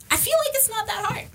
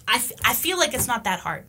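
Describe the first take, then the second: First: Squeaky-high, tongue-in-cheek aside; high-pitched understatement. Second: Said in the usual way. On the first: Real, not acted. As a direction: say it way up high, as if stating the obvious. Repeats her remark in high voice.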